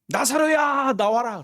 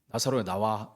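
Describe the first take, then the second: First: It is called out in a loud voice. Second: It is said in a plain, quieter voice.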